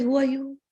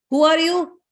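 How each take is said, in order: First: Unruffled counter-question. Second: High, demanding challenge; confronting Indra. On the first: Lady answering Indra's challenge with his question, unruffled. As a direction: question handed back, only slightly raised. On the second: Indra demanding the lady's identity, confronting. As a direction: challenge the stranger with a raised pitch. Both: Acted.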